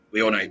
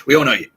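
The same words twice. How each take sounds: First: Said in the usual way. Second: Louder, emphatic mock reassurance. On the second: Hosts reassuring [name], louder emphatic. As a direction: call it out to her, emphatic.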